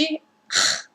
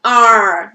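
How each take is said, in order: First: "R" as a voiceless breathy h sound; just breathe out the "R", like English H; R brasileiro aspirado. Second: "R" as a held, voiced American "ar". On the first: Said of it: "um R brasileiro". ("R" soprado, som do H inglês) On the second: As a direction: curl the tongue for a long English "R". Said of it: "o R americano é R". ("R" americano, retroflexo e prolongado) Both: Shown as a demonstration.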